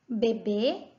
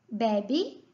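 First: Bebê, the final closed bê strong; bebê stressed at end. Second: Bebe with the first syllable be open and strong; bebe unaccented. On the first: Teacher showing the baby word, stress on bê. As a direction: land on the last syllable of Bebê. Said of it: "a diferença também é só o circunflexo". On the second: Teacher contrasting verb Bebe with bebê, first syllable stressed. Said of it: "Bebe, não tem nada". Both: Shown as a demonstration.

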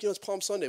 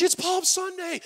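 First: Said in the usual way. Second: "it's Palm Sunday" squealed much higher and louder; excited wife. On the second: Retold or imitated. Wife thrilled at hearing "it's Palm Sunday", much higher. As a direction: gush "Palm Sunday" with delight. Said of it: "she's all excited".

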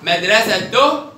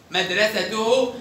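First: Slow, loud مدرسته as "madrasatoh"; sukun on haa. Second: Slow مدرسته as "madrasatuhu"; damma on haa. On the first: Teacher tests the haa, مدرسته ending in -oh. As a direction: end مدرسته on a breathed h. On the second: Teacher tests the haa, مدرسته ending in -uhu. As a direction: finish مدرسته with full -uhu. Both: Shown as a demonstration. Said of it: "دي برضو بالهاء".

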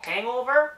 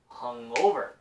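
First: "hangover" hit high and loud on "hang"; "hangover", front-stressed with a rising end; stress on first syllable. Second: "hungover" with the weight on "over", "hung" lower; "hungover", back-stressed; stress on the back part. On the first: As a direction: lean hard into the front of "hangover". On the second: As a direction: keep "hung" low and push "over" in "hungover". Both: Shown as a demonstration. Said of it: "hungover 하고 뒷부분에 강세 들어가요".

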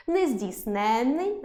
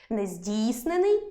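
First: НЕЗДІЙСНЕННИЙ stressed late on the suffix ЕНН. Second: НЕЗДІЙСНЕНИЙ stressed on the root syllable ДІЙ, single н. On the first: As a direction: say Нездійсненний slowly, leaning on ЕНН with a long н. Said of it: "наголос падає на суфікс". (Нездійсненний з наголосом на суфіксі ЕНН) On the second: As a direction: say нездійснений slowly, leaning on ДІЙ. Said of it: "наголос на корені". (нездійснений з наголосом на корені, на ДІЙ) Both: Shown as a demonstration.

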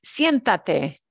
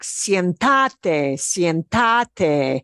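First: Siéntate with stress on its first syllable, SIEN. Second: Siéntate misstressed on the middle syllable, sien-TA-te; wrong stress on TA. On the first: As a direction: say Siéntate punching SIEN, not ta. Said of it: "We want it to sound like sienta". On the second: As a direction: punch the ta in Siéntate, as if unaccented. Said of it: "nobody punches the ta". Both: Shown as a demonstration.

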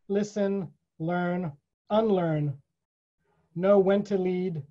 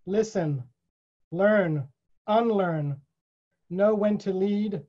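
No difference in how they are said.

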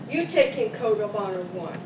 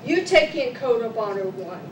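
Both takes have the same delivery.

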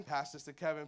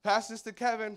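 First: Said in the usual way. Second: High, loud family call; mock call. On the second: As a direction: call it across the airport. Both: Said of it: "they're like".

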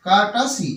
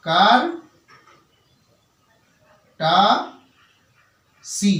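First: Said in the usual way. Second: কার, টা, সি as three separate syllables with long pauses; teacher slowly splitting কার-টা-সি into syllables. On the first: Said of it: "এর সঠিক উচ্চারণ হলো কার্টাসি". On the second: Shown as a demonstration. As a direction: break it into কার ... টা ... সি, each standing alone. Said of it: "যদি এটাকে আমি সি লেভেলে ভেঙে নিই".

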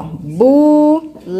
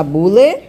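First: "bule" split into two long syllables, buuu, leee; "bule" sounded out as bu... le for a learner. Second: Said in the usual way. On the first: Shown as a demonstration. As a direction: stretch "bule" very slowly, one syllable at a time. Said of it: "Quantas vezes eu abro a boca". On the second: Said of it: "pra falar bule".

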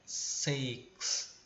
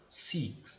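First: Whispered Six with a short e-like vowel; correct six. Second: Six with a tense Portuguese i; wrong six. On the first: Teacher modeling right Six, whispered. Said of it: "é como se fosse um E". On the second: Teacher contrasting the wrong six, tense i. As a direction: stretch the i in six. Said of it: "e não six". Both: Shown as a demonstration.

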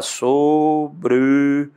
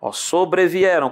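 First: "Sobrevieram" stretched out very slowly; drawn out slowly. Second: Said in the usual way. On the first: Shown as a demonstration. Teacher slowly sounding out "Sobrevieram" for the students. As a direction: drag out "Sobrevieram" so each syllable is heard. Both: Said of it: "como é que separa?".

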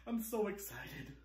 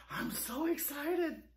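First: Said in the usual way. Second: Slower, higher, gushing excitement on "excited". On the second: Shown as a demonstration. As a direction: draw out "I'm so excited" with a thrill.

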